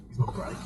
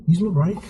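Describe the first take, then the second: First: Breathy whisper of the same instruction; whispered repeat. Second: Said in the usual way. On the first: Shown as a demonstration. Driving instructor whispering the brake step to himself. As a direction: say it again under your breath. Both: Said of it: "instructor repeating the brake step".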